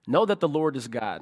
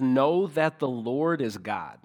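First: Said in the usual way. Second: Scripture reading. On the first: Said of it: "on a base level". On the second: Shown as a demonstration. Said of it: "the beginning of verse three says".

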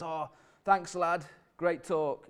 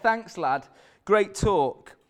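First: Lightly voiced old boy, a bit Scottish; slightly Scottish-sounding. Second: Said in the usual way. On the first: Old boy thanking the preacher after his talk, faintly Scottish accent. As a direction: imitate an old man with a faint Scottish lilt. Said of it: "was sounding a bit Scottish". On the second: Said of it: "He's from Hull".

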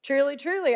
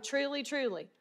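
First: "Truly, truly" pushed out with a firm falling stress; solemn emphatic quote. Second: Soft, falling "Truly, truly" said softly and held back; hushed solemn quote; quiet truly. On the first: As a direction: land both "Truly" words hard so they listen up. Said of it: "So you need to listen up". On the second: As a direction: ease into "Truly, truly" gently, as a hush. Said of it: "This is seriously important". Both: Shown as a demonstration.

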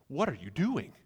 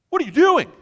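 First: Restrained, bewildered question; aghast. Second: Very high, loud shriek of disbelief; aghast outburst. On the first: Friend watching stacks of cash burn, quietly aghast. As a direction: ask it in contained disbelief. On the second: Friend watching stacks of cash burn, aghast shout. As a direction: explode in horrified disbelief. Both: Acted. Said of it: "you're all sitting there aghast".

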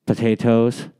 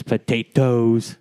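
First: A hint of hobbit-style accent on potatoes; lightly put-on accent, Lord of the Rings style. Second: Put-on potatoes drawn out slowly in a hobbit-style accent; slow, put-on Lord of the Rings accent. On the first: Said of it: "supposed to be an Irish accent". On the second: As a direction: stretch out potatoes in a mock Middle-earth accent. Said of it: "how they say in Lord of the Rings".

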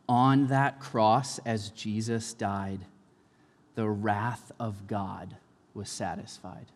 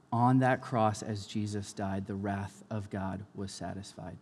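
First: Slow song line. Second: Said in the usual way. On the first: Shown as a demonstration. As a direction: let each phrase hang in the air. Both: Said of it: "a line in the song In Christ Alone".

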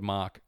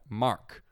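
First: "Mark" with a soft British R. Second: "Mark" with a sounded American R. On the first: Australian showing how he says a friend's name, "Mark" with soft R. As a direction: let the R in "Mark" drop away. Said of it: "I said that very British with that soft R". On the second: Australian attempting his one American word, "Mark" with American R. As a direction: put a full R into "Mark", American style. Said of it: "Is that American?". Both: Shown as a demonstration.

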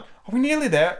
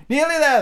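First: High, lightly acted breathless question; mildly winded Alice; panting out. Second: High, loud, scoffing echo; emphatic, high-pitched retort; Queen's exclaimed reply. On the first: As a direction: ask high, as if worn out from running. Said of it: "Alice managed to pant out at last". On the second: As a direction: throw the question back high and loud. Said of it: "the queen replied". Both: A narrator's reading.

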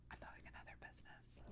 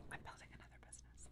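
First: Soft secretive whisper. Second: Fast secretive whisper; whispering, quicker. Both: Real, not acted. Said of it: "I have to whisper it".

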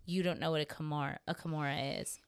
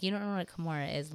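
First: Quick, tripping over "kimura" and repeating "a kimura"; fumbled line. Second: Said in the usual way. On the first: Retold or imitated. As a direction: stumble on the word "kimura", then restart it. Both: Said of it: "I can't even say it now".

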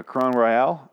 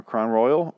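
First: "Crown Royale" with the ending stressed like "al"; unsure pronunciation. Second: "Crown Royal" rhyming with "loyal"; everyday pronunciation. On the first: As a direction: say "Crown Royale" the French-styled way. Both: Shown as a demonstration. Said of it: "really don't know which one it is".

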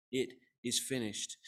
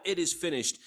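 First: Slow, deliberate quote, kept low-key; solemn quote. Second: Slightly raised voice, quoting a cry; hint at a shout without yelling it; mild retold shout. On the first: Retold or imitated. Preacher quoting Jesus' last words, slow and measured. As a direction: quote it slowly, with weight. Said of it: "John tells us what he actually said". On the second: Preacher quoting Jesus' loud cry, a mild retold shout. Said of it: "cried out in that loud voice, shouted out".

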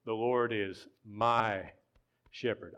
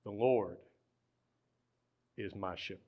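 First: "my" drawn out long before a pause; slow, leaning hard on "my"; stress on my. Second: "Lord" set apart by a long pause; weight on "Lord", then "is my shepherd" dropping softer; stress on Lord. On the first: Preacher claiming the shepherd as his own, stressing "my". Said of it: "but the Lord is mine". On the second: Preacher singling out one shepherd among many, stressing "Lord". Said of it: "There are maybe a lot of shepherds". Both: Shown as a demonstration.

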